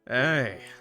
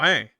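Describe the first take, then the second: First: It is said in a smooth, flirtatious way. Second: It is said in a plain, ordinary way.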